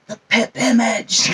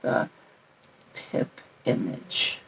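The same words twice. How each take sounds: First: "pip image" punched louder; "pip image" said loudly and pointedly; emphasis on PIP IMAGE. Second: Said in the usual way. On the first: Real, not acted. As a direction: hit "pip image" hard, with mock emphasis. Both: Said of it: "Put emphasis on that".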